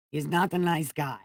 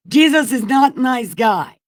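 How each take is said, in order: First: Softer, muttered afterthought "He's not a nice guy"; quiet repeat. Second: High, loud shouted verdict; outburst. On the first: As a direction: say it again under your breath, deflated. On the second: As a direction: blurt it out as an exasperated shout. Outburst after fig tree story. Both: Acted.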